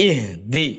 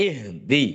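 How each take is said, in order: The two takes are said the same way.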